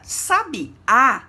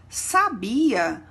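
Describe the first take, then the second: First: The stress falls on the last syllable. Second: The stress falls on the middle syllable. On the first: A songbird. "percebemos o acento agudo na última letra" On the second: A past form of the verb to know. "não possui acento"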